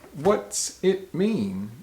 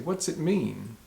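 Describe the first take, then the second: First: The words are kept separate from each other. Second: The words are pushed together like one word. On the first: The speaker calls it wrong. "We don't say" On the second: The speaker calls it right. "pushed together"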